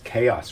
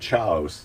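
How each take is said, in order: First: The word is pronounced in the ordinary way. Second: The word is pronounced in a deliberately altered way.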